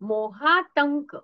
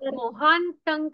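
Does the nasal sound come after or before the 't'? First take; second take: after; before. First: The nasal sound comes after the 't'. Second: A nasal sound comes before the 't'. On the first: The speaker calls it right. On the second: The speaker calls it wrong.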